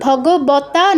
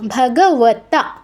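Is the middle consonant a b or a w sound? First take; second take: b; w. First: The middle consonant is a b sound. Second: The middle consonant is a w sound. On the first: The speaker calls it wrong. "এখানে কিন্তু ভগবতা নয়" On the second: The speaker calls it right. "ও উচ্চারণটা ও, ব নয়"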